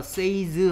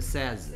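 First: The vowel sounds long, as in 'say'. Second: The vowel is short, as in 'set'. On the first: The speaker calls it wrong. "얘 발음이 say다 보니까 says 하는데 says가 아니고" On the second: The speaker calls it right. "얘는 발음이 says라고 합니다"

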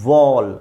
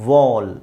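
The two takes are said the same way.

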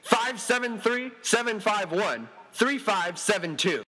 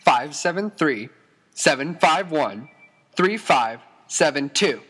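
First: The number is said at normal speed. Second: The number is said more slowly.

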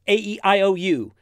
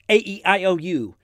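No difference in how they are said.

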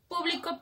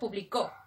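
First: The stress is on the first syllable. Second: The stress is on the last syllable.

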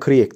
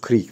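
First: The word is pronounced the Turkish way. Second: The word is pronounced the English way. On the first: The speaker calls it wrong. "birliklerine Kriek diyorum" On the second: The speaker calls it right. "ama doğrusu Kriek falan ya"

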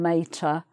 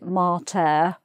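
First: The word has its usual English pronunciation. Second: The word has a classical Latin pronunciation. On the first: This is the jokey English form for mother. "rather than mater" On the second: This is how it is said in Latin study. "if you're studying Latin, you might pronounce it mater"

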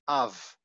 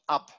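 First: The word ends in a V sound. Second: The word ends in a B sound. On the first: The speaker calls it right. "you say av" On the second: The speaker calls it wrong. "and not ab"

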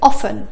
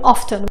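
First: The t sound in the middle is silent. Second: The t sound in the middle is pronounced. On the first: "النطق الصح هو often" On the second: "كمان ممكن نقول often"

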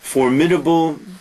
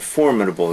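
First: The stress is on a later syllable. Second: The stress is on the first syllable. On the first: The speaker calls it wrong. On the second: The speaker calls it right. "formidable is better"

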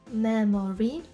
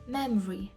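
First: All three syllables are pronounced fully. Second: A syllable is dropped, giving two syllables. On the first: "може і так звучати" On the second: "може звучати скорочено як memory"

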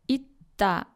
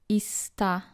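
First: The final consonant takes its changed, different sound. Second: The final consonant keeps its spelled sound. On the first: The speaker calls it right. "They are either pronounced differently" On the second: The speaker calls it wrong.

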